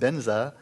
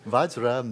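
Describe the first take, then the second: First: It is said with a b and z sound. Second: It is said with a v and j sound. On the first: This is the Tibetan pronunciation. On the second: This is the original Sanskrit pronunciation.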